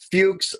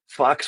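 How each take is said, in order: First: The vowel sounds like oo. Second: The vowel sounds like uh.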